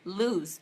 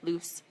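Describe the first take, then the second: First: The word ends with a buzzing z sound. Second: The word ends with a hissing s sound. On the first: "You do say the Z" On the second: "You don't really say the Z"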